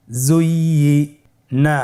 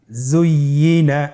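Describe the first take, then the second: First: জুইয়িনা stretched slowly, syllables held; slow drawn-out reading. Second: Said in the usual way. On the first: Shown as a demonstration. (ধীরে টেনে জুইয়িনা) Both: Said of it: "আমার সাথে বলুন".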